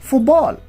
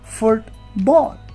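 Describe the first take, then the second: First: The middle sounds blend into each other. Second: Each sound is said carefully and separately. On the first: "But in connected speech, you may say football" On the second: "In isolation, you can say, I love football"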